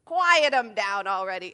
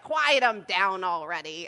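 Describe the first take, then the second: First: Louder, disbelieving echo of his words; incredulous repeat. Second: Louder, gruff imitation of a crotchety old man; grumpy old man. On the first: Retold or imitated. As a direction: throw his line back at him in shock. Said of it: "And I'm like, "Uh, excuse me?". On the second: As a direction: bark it like a cranky stranger in Costco. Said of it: "the old man is like".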